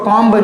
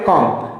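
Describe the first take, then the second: First: The final b sound is pronounced. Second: The final b sound is silent. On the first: The speaker calls it wrong. "इसको कॉम्ब नहीं पढ़ के" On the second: The speaker calls it right. "हम लोग क्या पढ़ेंगे"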